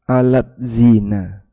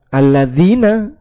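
First: The word is split into two separate parts. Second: The word is said as one joined word. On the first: The speaker calls it wrong. "tapi dibaca terpisah" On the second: The speaker calls it right. "Padahal aslinya alladzina"

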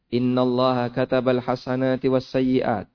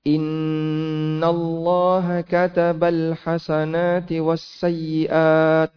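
First: Vowels are short with plain, everyday reading sounds. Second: Vowels are drawn out with nasal, recited sounds. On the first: The speaker calls it right. "makanya kenapa kita baca biasa saja" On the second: The speaker calls it wrong. "Perlu kayak gitu enggak? Tidak"

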